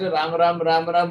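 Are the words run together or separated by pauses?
run together. The words run together quickly without gaps.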